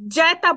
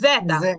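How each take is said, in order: First: The first vowel sounds like 'ya'. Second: The first vowel sounds like 'e'. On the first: The speaker calls it wrong. "এখানে জ্যাটা বলবেন না" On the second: The speaker calls it right. "এটা জ"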